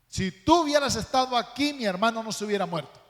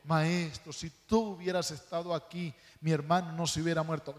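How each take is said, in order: First: It is said as a reproachful complaint. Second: It is said as a calm, humble statement.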